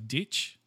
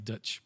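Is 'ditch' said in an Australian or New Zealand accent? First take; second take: Australian; New Zealand. First: The vowel sounds like an Australian accent. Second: The vowel sounds like a New Zealand accent. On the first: "We say ditch" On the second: "They say Dutch"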